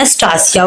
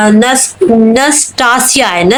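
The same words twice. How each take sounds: First: Said in the usual way. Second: नस्टासिया spelled out slowly, syllable by syllable, rising at the end; careful slow pronunciation. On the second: Shown as a demonstration. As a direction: sound out नस्टासिया carefully, naas-taa-si-ya. (नस्टासिया को धीरे-धीरे, एक-एक अक्षर पर रुककर बोलें) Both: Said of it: "नाम पे गुस्सा आती है".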